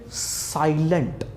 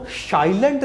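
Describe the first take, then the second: First: 'साइलेंट' very slowly with a clear s; drawn-out model 'साइलेंट' with plain s; correct s sound. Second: 'साइलेंट' mispronounced 'shai-lent'; 'साइलेंट' opening on sh; wrong sh sound. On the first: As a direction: stretch out 'साइलेंट', opening on s, not sh. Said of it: "स का sound दिया". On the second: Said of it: "इसको साइलेंट नहीं बोलते". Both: Shown as a demonstration.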